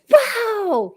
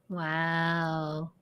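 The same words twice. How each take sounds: First: The word is said with excited, lively emphasis. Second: The word is said flatly, without excitement. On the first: The person is genuinely impressed. "with an exclamation mark or, or all caps" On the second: The person might be sarcastic or unimpressed. "It was like"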